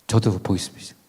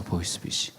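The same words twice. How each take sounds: First: Said in the usual way. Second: Whispered aside. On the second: Real, not acted. Aside about novice scammer.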